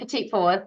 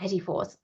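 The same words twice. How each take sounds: First: The first word is pronounced like 'petite'. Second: The first word is pronounced as 'petit'. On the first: The speaker calls it wrong. "I said that wrong, ... I don't know why I said petite" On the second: The speaker calls it right.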